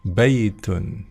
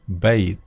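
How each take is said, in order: First: The word ends with a vowel and n. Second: The word ends abruptly on the t. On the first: "tetap membaca harokat terakhir ya, baitun" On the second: "boleh dimatikan huruf terakhir ya"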